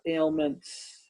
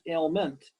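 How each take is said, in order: First: The word ends with a final s sound. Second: The word ends without a final s sound. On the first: The speaker calls it right. "but ailments with the S" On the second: The speaker calls it wrong. "not just ailment"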